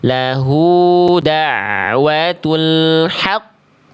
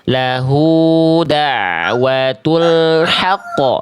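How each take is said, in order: First: The final q is pressed and held before bouncing. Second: The final q bounces out immediately without holding. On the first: The speaker calls it right. "tasydid tekan dulu" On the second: The speaker calls it wrong. "itu yang tadi Ibu Dewi baca"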